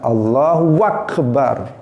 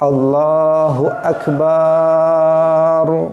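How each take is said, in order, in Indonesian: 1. Ada bunyi w tambahan di antara kata-katanya. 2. Suku kata ba dipanjangkan. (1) "ada wawunya di tengah-tengah" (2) "dipanjangkan baknya"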